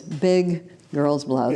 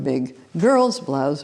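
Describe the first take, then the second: First: The stress falls on the word blouse. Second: The stress falls on the word girl's. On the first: The insult targets the item of clothing. "the item of clothing that was being singled out" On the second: The insult targets the gender. "the gender"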